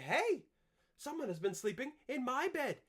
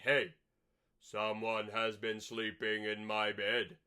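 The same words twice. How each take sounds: First: It is said in Mama Bear's voice. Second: It is said in Papa Bear's voice.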